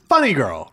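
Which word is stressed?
Funny. The stress falls on the first word. The speaker calls it right. "With Funny Girl, it's the first"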